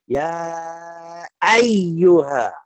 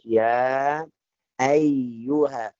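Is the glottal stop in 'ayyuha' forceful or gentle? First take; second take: forceful; gentle. First: The glottal stop is hit hard and forcefully. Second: The glottal stop is produced lightly and smoothly. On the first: The speaker calls it wrong. "ada yang bacaannya keras ya ayyuha, hai ini salah juga" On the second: The speaker calls it right. "Harus ya ayyuha"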